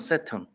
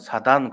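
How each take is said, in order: First: It begins with s, with a reduced second vowel. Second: It begins with s, ending in a soft dan. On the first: "영어로는" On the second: "옛날에는"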